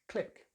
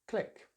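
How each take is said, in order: First: The vowel is a short 'i' sound. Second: The same.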